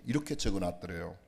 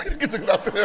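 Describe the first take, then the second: First: Said in the usual way. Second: "이렇게 적어놨더래요" said through a loud laugh, higher and louder. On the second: Retold or imitated. Preacher laughing at the daughter's note, laughing out the punchline. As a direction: burst out laughing while saying "이렇게".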